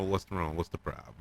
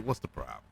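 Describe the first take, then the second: First: Dismissive, hushed and much softer; disrespectful. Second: Low, soft, dismissive mutter; disrespectful. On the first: Alicent dismissing Aegon, soft whispered disdain. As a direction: brush him off under your breath. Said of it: "asks us in a way which was so disrespectful". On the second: Alicent brushing off her son, low and dismissive. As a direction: drop it low and cold. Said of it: "which was so disrespectful". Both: Retold or imitated.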